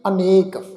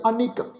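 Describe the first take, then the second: First: The second vowel is a long 'e'. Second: The second vowel is a short 'i'. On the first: This is the word's basic form. "असल में ख्याल रखो ये शब्द है जी अनेक" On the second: The vowel has been shortened in this text. "इत्थे जिहड़ा शब्द आ उच्चारण करांगे अनिक"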